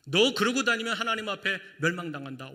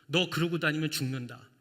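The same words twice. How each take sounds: First: Stern warning. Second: Said in the usual way. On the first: Retold or imitated. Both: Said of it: "주님께서는 완전수로".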